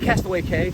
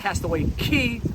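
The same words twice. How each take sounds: First: The word 'Cay' rhymes with 'day'. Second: The word 'Cay' rhymes with 'key'. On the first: The speaker calls it wrong. "It is not Castaway Cay" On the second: The speaker calls it right. "it's Castaway Cay"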